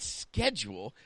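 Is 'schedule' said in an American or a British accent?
American. The word is said in an American accent. The speaker calls it wrong. "No, not schedule"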